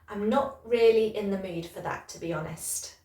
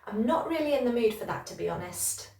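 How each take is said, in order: First: The sentence is said at a slower pace. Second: The sentence is said at a faster pace.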